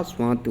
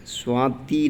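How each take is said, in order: First: स्वाति with a short final i; softer स्वाति ending in a brief "ti"; correct form. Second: स्वाति with a long, stressed final ee; slow स्वाति, long last vowel; wrong form. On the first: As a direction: cut the last vowel of स्वाति short. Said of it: "स्वाति होता है". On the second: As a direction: draw out the end of स्वाति as "swaatee". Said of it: "स्वाति नहीं होता". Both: Shown as a demonstration.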